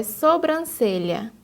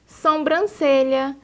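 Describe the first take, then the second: First: Sobrancelha starting with a plain so, no nasal m; pronúncia correta; correct pronunciation. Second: Sobrancelha said slowly as sombrancelha, with a nasal som; pronúncia errada; wrong pronunciation. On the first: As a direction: say so-bran-ce-lha cleanly. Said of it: "o correto é sobrancelha". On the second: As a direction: add an m sound: som-bran-ce-lha. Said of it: "quando o correto é sobrancelha". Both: Shown as a demonstration.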